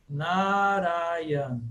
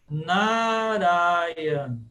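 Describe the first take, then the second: No difference in how they are said.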